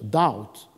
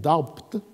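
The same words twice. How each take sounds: First: The b is silent in the word. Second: The b is sounded in the word. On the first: "qui vous prononce « doubt » sans « b »" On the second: "alors qu'il devrait dire « doubt »"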